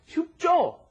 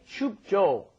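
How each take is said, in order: First: The J sound is hard and tense. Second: The J sound is soft and relaxed. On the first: The speaker calls it right. "it's kind of a hard J" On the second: The speaker calls it wrong. "it's not just Joe... Doesn't really work that way"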